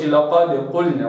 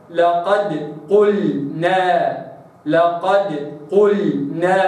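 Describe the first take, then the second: First: لقد قلنا with a heavy, thickened dal; wrong recitation. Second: لقد قلنا slow, dal kept light between heavy letters; tajweed recitation. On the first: Teacher shows the mistaken لقد قلنا. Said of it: "مش". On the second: Teacher models correct لقد قلنا. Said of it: "هكذا". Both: Shown as a demonstration.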